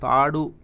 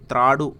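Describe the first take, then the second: First: తాడు said plainly with no r after the t; wrong way, తాడు. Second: త్రాడు said with a clear tr cluster, t then r; with the ra-vattu. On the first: Teacher gives the wrong form తాడు, then plain. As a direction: drop the r sound in తాడు. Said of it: "త్రాడు అని రావత్తు పెట్టే పలకాలే". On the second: Teacher shows the right form త్రాడు, with the r sounded. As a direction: make the r in త్రాడు heard after the t. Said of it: "రావత్తు పెట్టే పలకాలే". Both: Shown as a demonstration.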